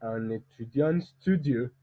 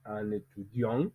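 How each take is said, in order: First: Slow, with the stress on "studieux" rather than "étudiant"; stress moved to group end. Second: "étudiant" stressed on DIANT, rising at the end; group-final stress. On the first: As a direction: carry "étudiant" through to a stressed final "studieux". (accent tonique déplacé de « étudiant » à la fin de « studieux ») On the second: (« étudiant » accentué sur DIANT, en montant) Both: Shown as a demonstration. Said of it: "ce n'est pas le même".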